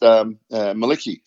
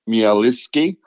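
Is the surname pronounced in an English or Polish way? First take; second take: English; Polish. First: The surname is said with English pronunciation. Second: The surname is said with Polish pronunciation. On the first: "had been anglicised" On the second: "If we pronounced it the Polish way"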